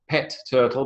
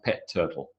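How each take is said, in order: First: The t at the end of 'pet' is pronounced. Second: The t at the end of 'pet' is dropped.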